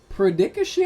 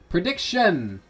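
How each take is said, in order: First: The ending blurs into a sound like 'dickish'. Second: The ending sounds like 'dick-shin', more separated. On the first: The speaker calls it wrong. "Sounds like I'm saying dickish" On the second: The speaker calls it right. "It sounds like dick on the shin"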